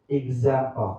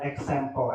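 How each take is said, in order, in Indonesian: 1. Huruf x di tengah diucapkan dengan bunyi z. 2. Huruf x di tengah diucapkan tanpa bunyi z. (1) "use Z, ... but example" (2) "Don't example"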